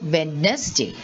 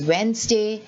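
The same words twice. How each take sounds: First: The first D sound is pronounced. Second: The first D is silent. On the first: The speaker calls it wrong. "Many of us say Wednesday" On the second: The speaker calls it right. "it is Wednesday"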